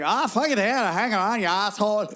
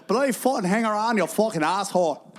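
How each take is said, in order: First: Hammed-up Southern accent, pitched up. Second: Bad Northern Irish accent, higher at the start. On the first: Comic showing off his accents on request, Southern accent. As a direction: put on a rough Southern accent. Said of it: "All right, Southern". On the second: Comic showing off his accents on request, Northern Irish accent. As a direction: put on a rough go at Northern Irish. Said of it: "Northern Ireland". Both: Shown as a demonstration.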